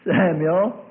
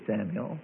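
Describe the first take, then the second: First: Raised, insistent calling of a name; acted summons, lifted and drawn out; persistent call. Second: Low, soft voice calling in the night; hushed, acted summons; quiet call. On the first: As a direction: call out higher to wake a sleeper. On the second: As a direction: call the name softly and low. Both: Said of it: "that voice persisted and said".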